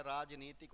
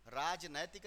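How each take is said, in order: First: राजनीतिक said as raj-nee-tik, with a long "ee"; correct form. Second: राजनैतिक said as raj-nai-tik, with the "nai" vowel; wrong form. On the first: Teacher gives students the correct word, saying rajneetik. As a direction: give राजनीतिक a clear "नी", rajneetik. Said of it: "राजनीतिक होता है शब्द". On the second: Teacher shows students the wrong spelling, saying rajnaitik. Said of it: "राजनैतिक नहीं होता है". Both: Shown as a demonstration.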